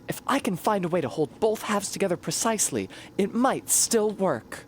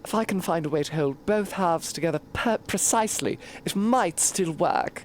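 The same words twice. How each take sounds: First: It is spoken in an American accent. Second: It is spoken in a posh British accent. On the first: "I said it in fucking American English" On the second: "I did not say"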